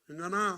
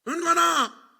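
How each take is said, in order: First: The name is called in a gentle, soft voice. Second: The name is called in a raised, loud voice. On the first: This is the first call to wake the child. "처음에는 어떻게?" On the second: The child has ignored earlier calls. "그럼 목소리가 높아져요"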